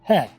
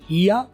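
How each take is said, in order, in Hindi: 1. इसे 'hay' जैसा बोला जाता है, 'there' से तुक मिलता हुआ। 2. इसे 'hee-ah' जैसा बोला जाता है, आख़िर में schwa के साथ। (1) "अगर आप चाहते हो कि दै के साथ मिल जाए" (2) "आप इसे दो तरीके से बोलते हो"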